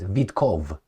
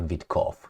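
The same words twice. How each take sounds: First: The name ends with a soft 'ov' sound. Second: The name ends with a sharp 'off' sound. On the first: The speaker calls it right. "He's Witkov" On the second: The speaker calls it wrong. "not Witkov"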